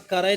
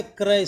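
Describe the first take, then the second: First: क्रय split as ka-ray; wrong pronunciation. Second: क्रय with k and r joined, kray; correct pronunciation. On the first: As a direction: put a vowel between k and r in क्रय. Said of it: "क्रय नहीं होता है". (गलत उच्चारण, क्रय को "क-रय" बोलें) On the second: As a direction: say क्रय as one syllable, kray. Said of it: "क्रय सही होगा". (सही उच्चारण, क्रय में जुड़ा "क्र") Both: Shown as a demonstration.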